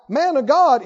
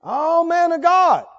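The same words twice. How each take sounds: First: Said in the usual way. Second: High, drawn-out mock reverence; sarcastic. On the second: Shown as a demonstration. Captain mocking Elijah the prophet, sarcastic. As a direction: stretch the title out to mock it.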